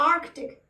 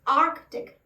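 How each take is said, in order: First: A k sound is heard before the t. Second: The same.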